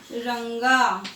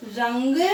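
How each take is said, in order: First: रंगा with a clear ng and a long final a; pronunciation demo. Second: रंग with a short a and a final ng; pronunciation demo. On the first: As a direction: let the a of रंगा ring out. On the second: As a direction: end रंग on a clear ng. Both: Shown as a demonstration. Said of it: "बोलने में फर्क लग रहा है".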